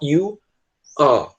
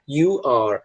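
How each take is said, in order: First: The final R sound is dropped. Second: The final R sound is clearly pronounced. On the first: It sounds British. "soar que nem os ingleses... mas eles não puxam o R" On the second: It sounds American. "Geralmente no inglês americano, eles tendem a falar you are. Eles puxam o R"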